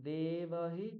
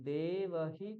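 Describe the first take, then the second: Both takes have the same delivery.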